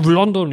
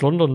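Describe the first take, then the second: First: The word is said with loud excitement. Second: The word is said flatly, without excitement. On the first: Someone is thrilled by the announcement. "du bist ja übel abgegangen, als es da angekündigt wurde. So, boah" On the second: Someone is unimpressed by the announcement. "Ich so, ja, okay"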